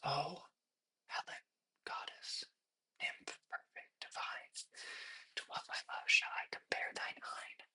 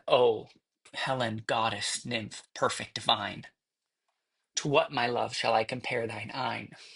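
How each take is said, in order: First: It is whispered softly. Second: It is spoken aloud with intention.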